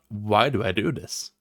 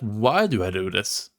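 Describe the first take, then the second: First: The question sounds negative and frustrated. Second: The question sounds positive and curious. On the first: The person sees no point in the activity. The speaker calls it wrong. "But not" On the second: The person is searching for a meaningful purpose. The speaker calls it right. "in a positive way, and an intriguing way. I'm looking for that"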